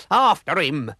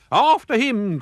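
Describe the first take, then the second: First: Loud rallying cry; pirate shout. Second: High, loud chase cry; pirates' cry. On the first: Pirate captain sends crew after villain, loud shout. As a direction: urge the crew on. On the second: Pirates chase after the dog, loud high cry. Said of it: "cried the pirates". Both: A narrator's reading.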